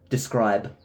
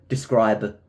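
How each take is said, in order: The two takes are said the same way.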